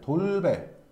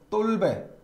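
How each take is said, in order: First: The first consonant is a plain, lax d. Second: The first consonant is a tense, stiff dd. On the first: This is the ordinary form of the word. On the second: This is how some regions pronounce the word.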